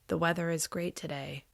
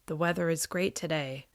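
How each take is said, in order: The two takes are said the same way.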